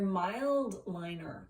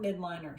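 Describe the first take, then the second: First: The first part is said with an L sound. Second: The first part is said without an L sound. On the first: The speaker calls it right. "there's an L there. They're mild liner" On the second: The speaker calls it wrong. "They're not midliner"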